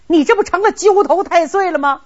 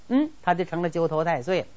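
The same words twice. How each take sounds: First: Higher, louder, stress on 这, falling; an exasperated emperor scolds him, stressing 这; angry retort. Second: Said in the usual way. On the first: Acted. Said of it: "李世民气的". (生气地质问，重读“这”)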